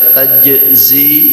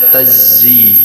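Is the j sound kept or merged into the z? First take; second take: kept; merged. First: The j sound is kept before the z. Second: The j sound merges into a double z. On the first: "boleh pecat idgham" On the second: "boleh pakai idgham"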